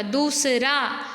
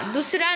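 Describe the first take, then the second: First: दूसरा said slowly as "dooo-s-raa"; slow दूसरा with a long "oo". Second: दूसरा said as "dus-raa"; short उ. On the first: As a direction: stretch the दू in दूसरा. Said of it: "द में बड़े ऊ की मात्रा". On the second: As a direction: clip दू to दु in दूसरा. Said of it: "दूसरा नहीं होता". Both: Shown as a demonstration.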